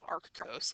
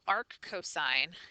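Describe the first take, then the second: First: The second word is shortened to cos. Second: The second word is said in full as cosine. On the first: The speaker calls it wrong. "not arc cos" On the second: The speaker calls it right. "arc cosine is the way that you pronounce this"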